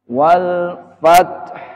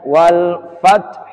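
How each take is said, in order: First: The final consonant is clearly hissed out. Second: The final consonant is barely audible. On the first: "haknya juga disukun dengan jelas" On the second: "tidak begitu jelas"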